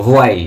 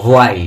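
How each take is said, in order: The two takes are said the same way.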